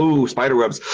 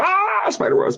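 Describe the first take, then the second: First: Imitating visitors' mild awe; mildly spooked ooh. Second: High-pitched imitated shriek of fright; mock scream. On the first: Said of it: "and they go". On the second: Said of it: "And they go".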